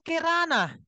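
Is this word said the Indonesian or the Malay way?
Malay. The first vowel is a reduced 'e' sound.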